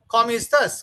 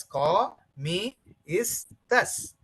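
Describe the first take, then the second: First: Said in the usual way. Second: "Come is thus" in separate syllables with pauses; broken into syllables. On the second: Shown as a demonstration. Teacher breaking up a phrase for learners, "Come is thus" syllable by syllable. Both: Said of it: "When I broke it".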